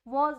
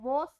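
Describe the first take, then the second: First: The word ends with a buzzing z sound. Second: The word ends with a hissing s sound. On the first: The speaker calls it right. "वॉज बोलते हैं" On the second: The speaker calls it wrong. "वॉस नहीं बोलते"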